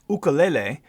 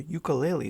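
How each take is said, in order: First: It uses the original, less familiar pronunciation. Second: It uses the common, familiar pronunciation. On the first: "which is the proper way to pronounce it" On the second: "I'm going to go with what we know"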